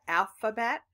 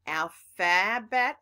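First: "alphabet," with a reduced uh in the middle; uh vowel. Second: "alphabet," with a clear short a in the middle, slow; full a vowel. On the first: Teacher showing the relaxed pronunciation. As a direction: say "alphabet," as al-fuh-bet. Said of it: "sounded like an uh". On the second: Teacher showing one way to say it. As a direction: stretch "alphabet," with al-fa-bet. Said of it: "So you can say alpha". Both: Shown as a demonstration.

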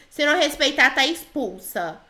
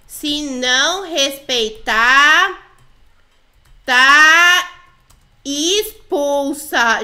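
First: Said in the usual way. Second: "Se não respeitar, tá expulsa" very drawn out, with pauses and loud "tá"; slow warning. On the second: Pretend. Player types a threat to the girls, "Se não respeitar, tá expulsa", slowly dictated.

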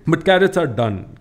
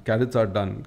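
First: "carrots" hit higher and louder, falling to "done"; emphatic declaration. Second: Said in the usual way. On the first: Acted. To the audience, dismissing carrots as old news: loud, emphatic "carrots". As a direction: slam down "carrots", then let "done" fall.

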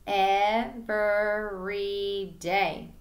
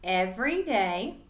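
First: Every day split slowly into Ev-ery-day; each syllable of Every day pulled apart; syllables chopped apart. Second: Said in the usual way. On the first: Shown as a demonstration. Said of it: "then chop it into syllables". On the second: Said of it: "repeat it".

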